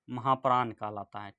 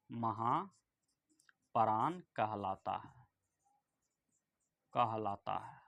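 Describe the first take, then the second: First: Said in the usual way. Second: Very slow, lower and softer dictation; drawn-out, quiet word-by-word delivery. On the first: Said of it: "क्या कहलाता है?". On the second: Shown as a demonstration. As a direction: stretch each word out for students writing it down. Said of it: "यहाँ लिख लीजिए".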